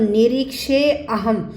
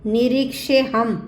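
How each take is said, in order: First: The two words are said apart with 'a'. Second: The words are joined, with no 'a' sound. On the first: "अगर हम अलग अलग करेंगे तो" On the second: "यहाँ भी देखो अ नहीं बोलेंगे"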